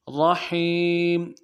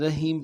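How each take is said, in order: First: رحیم with a heavy ر and a deep throaty ح. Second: رحیم said with a light h and a thin ر; رحیم said flat, with an Urdu ہ; wrong light ha. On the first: A Quran teacher shows students the correct reading, a deep one. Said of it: "ہا کو گہرائی سے ادا کرنا چاہیے". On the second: A Quran teacher shows students the mistake, a light reading. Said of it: "رحیم پڑھتے ہیں". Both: Shown as a demonstration.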